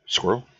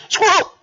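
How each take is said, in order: First: Said in the usual way. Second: High, loud squawk; high shout. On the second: Acted. Game character calls out Squirrel, high shout.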